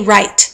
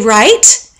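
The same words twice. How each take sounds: First: It sounds plain and matter-of-fact. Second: It sounds warm and agreeing. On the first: The statement is correct. "that means the same as correct" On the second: The speaker agrees with the listener. "that means I agree"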